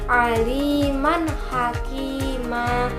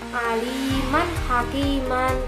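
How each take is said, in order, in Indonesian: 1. Kata terakhir berakhir pada vokal panjang. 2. Kata terakhir berakhir dengan bunyi n. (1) "yang membacanya yang benar yaitu aliman hakima" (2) "Bukan membacanya itu bukan aliman hakiman"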